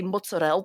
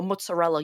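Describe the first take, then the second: First: Mozzarella clipped to mutz-a-rel with the final vowel dropped; New York Italian mozzarella. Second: Mozzarella said the Italian way with every syllable, ending on a full open a; crisp Italian mozzarella, tsa in the middle. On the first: Contrasting it with proper Italian for her co-host: New York mozzarella. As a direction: mozzarella the New York deli way, ending swallowed. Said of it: "you say mozzarella". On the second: Explaining the difference to her co-host: proper Italian mozzarella. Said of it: "instead of saying". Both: Shown as a demonstration.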